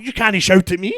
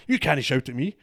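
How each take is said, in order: First: Loud, high-pitched mock roar; comic retold screaming match; roaring back. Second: Teacher's indignant yell, retold; raised, higher voice imitating an angry teacher; mock shouting. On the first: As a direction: yell it back, outraged and hammed-up. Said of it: "I started roaring back at him". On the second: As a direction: act out a teacher shouting, not full force. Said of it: "just started shouting".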